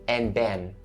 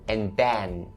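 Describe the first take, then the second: Both takes have the same delivery.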